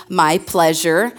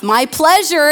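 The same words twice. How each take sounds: First: Slow, drawn-out "My pleasure"; Chick-fil-A reply. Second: "My pleasure" higher and louder, bright; cheery Chick-fil-A reply. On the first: To the congregation, imitating Chick-fil-A staff, slow and sweet. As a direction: stretch "My pleasure" out slowly and sweetly. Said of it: "say it with me". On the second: Pastor quoting Chick-fil-A staff, higher and louder. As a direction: chirp "My pleasure" like a happy cashier. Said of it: "is what they say to everything". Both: Retold or imitated.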